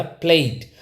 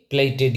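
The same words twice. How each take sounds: First: "प्लेट" as one syllable, played with a slight ee glide; teacher's model "प्लेट", vowel gliding into d; correct pronunciation. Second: "प्लेटेड" in two syllables, PLAY-ted; wrong pronunciation. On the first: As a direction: say "प्लेट" like PLAYD, no extra syllable. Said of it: "इसको क्या पढ़ा जाएगा". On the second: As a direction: add an extra -ted to "प्लेटेड". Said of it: "कई लोग इसको गलत बोलते हैं". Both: Shown as a demonstration.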